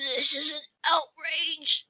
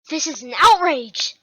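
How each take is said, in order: First: It is said in an old man's voice. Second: It is said in a younger-sounding voice.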